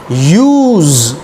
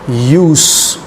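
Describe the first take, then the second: First: The word ends with a buzzing z sound. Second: The word ends with a hissing s sound. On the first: It is the verb. "z, z, z, buzzing sound, verb" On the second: It is the noun.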